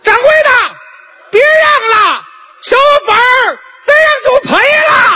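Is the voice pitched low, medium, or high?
high. It is said at a very high pitch.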